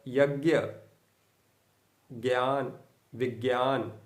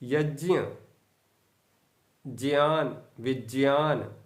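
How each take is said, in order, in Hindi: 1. यह संयुक्त अक्षर 'j' ध्वनि से नहीं बना है। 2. यह संयुक्त अक्षर 'j' ध्वनि से बना है। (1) "ये अशुद्ध हो जाएगा" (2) "ये शुद्ध है"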